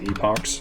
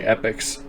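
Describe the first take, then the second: First: The word is said like 'ee-pocks'. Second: The word is said like 'epics'. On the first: This is how an Australian says it. "he's Australian and says epochs" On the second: This is how Americans say it. "I hear Americans say epics all the time"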